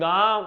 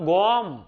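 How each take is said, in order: First: The vowel is an open a sound. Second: The vowel is an o sound. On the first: This is the standard Gujarati form. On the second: This is the Charotar and North Gujarat dialect form.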